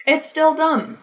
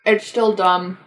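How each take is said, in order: First: Said in the usual way. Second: Talking around a bite of bagel; words muffled by chewing; mouth full. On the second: Real, not acted. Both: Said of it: "Sorry, I'm eating".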